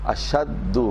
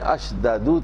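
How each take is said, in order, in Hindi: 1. दोनों एक जैसे व्यंजन मिलकर एक दोहरी ध्वनि बन जाते हैं। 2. एक स्वर दोनों एक जैसे व्यंजनों को अलग करता है। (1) "अशद्दु हो गया" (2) "असल में अशददु था"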